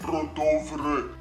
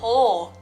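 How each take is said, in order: First: It is said with Romanian or Russian-like sounds. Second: It is said with reduced Danish sounds. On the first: The speaker calls it wrong. "Very Romanian, very Russian, you would say Rodovre" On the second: The speaker calls it right. "that's how you pronounce it"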